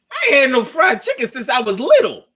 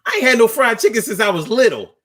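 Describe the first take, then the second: First: High and laughing, a bit fast; gleeful over his mom's fried chicken; excited laughing quote. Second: High, quick and gleeful; blurting joy at fried chicken; excited laughing quote. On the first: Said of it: "I said". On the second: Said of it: "I was like". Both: Retold or imitated.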